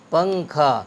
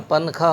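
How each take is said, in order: First: پنکھا with the nasal blended into kh, paŋ-kha; پنکھا blended, pəŋkʰa; correct ghunna. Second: پنکھا with a plain separate n, pan-kha; پنکھا mispronounced as pən-kʰa; wrong separated n. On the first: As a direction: say پنکھا with ŋ joined to kh. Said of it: "اس کو ہم الگ نہیں پڑھ سکتے". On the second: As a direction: split پنکھا with a clear n. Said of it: "ورنہ پنکھا ہو جائے گا اور وہ غلط ہو جائے گا". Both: Shown as a demonstration.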